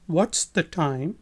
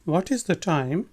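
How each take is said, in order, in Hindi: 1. 'what is' छोटा होकर 'what's' बोला जाता है। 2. 'what is' पूरा बोला जाता है।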